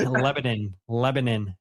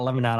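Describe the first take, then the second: First: Lebanon with a short reduced "nin"; Lebanon ending in -nin. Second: Lebanon with an open last vowel, "non"; Lebanon ending in -non. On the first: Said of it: "You're absolutely right". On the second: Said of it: "Definitely not Lebanon". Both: Shown as a demonstration.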